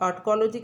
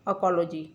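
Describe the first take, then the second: First: The t sound is clearly pronounced. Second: The t sound is left silent. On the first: "इसे टी को silent नहीं लेते हैं" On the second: "तो टी silent भी हो सकता है"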